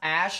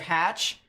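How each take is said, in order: First: The word begins with a vowel sound. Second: The word begins with an H sound. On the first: The speaker calls it right. "It's pronounced Ash" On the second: The speaker calls it wrong. "instead of Hatch"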